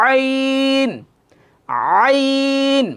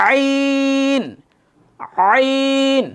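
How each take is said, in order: No difference in how they are said.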